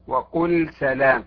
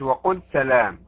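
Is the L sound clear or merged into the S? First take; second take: clear; merged. First: The L is pronounced clearly before the S. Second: The L is merged into the following S. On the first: The speaker calls it right. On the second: The speaker calls it wrong.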